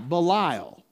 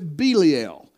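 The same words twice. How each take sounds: First: The middle syllable has a long I sound. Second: The middle syllable has no long I sound. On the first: "I've always pronounced it with a long I" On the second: "But he pronounces it Belial"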